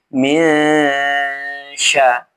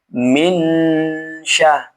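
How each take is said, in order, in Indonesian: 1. Bunyi n-nya samar dan disengaukan ke arah sh. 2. Bunyi n-nya diucapkan jelas dan penuh. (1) "tapi minsya. Ya, dibaca samar" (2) "Bukan dibaca minsya"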